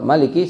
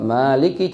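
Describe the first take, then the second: First: The first vowel is short. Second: The first vowel is long. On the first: The Fatihah totals 155 letters. "seratus lima puluh lima jadi hurufnya Fatihah" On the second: The Fatihah totals 156 letters. "jadi seratus lima puluh enam"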